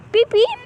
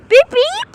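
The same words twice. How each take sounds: First: Said in the usual way. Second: Shouted beep. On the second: Real, not acted. Kids calling at cars to honk.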